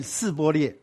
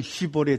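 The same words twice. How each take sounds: First: 示波列 begun with a plain s sound; mispronounced password. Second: 希波列 begun with a hushing sh sound; correct password. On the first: Teacher showing the tribe's fatal slip, 示波列 with an s. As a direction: say 示波列 slowly with s, not sh. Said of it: "他们叫一个民族叫做， 你们念". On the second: Teacher showing the word they were told to say, 希波列 with sh. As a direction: say 希波列 with sh, not s. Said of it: "事实上他是叫他念希波列这个字". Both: Shown as a demonstration.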